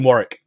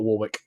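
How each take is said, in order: First: The name is said the British way. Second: The name is said a non-British way. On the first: "I always pronounce it Warwick because that's how it is in the U K" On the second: "not Warwick"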